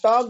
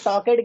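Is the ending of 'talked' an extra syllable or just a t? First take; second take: just t; extra syllable. First: The ending is a plain t sound, no syllable. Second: The ending is a separate 'ed' syllable. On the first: The speaker calls it right. "टॉक्ड होता है" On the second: The speaker calls it wrong. "ईडी को एड बोलना बंद करिएगा"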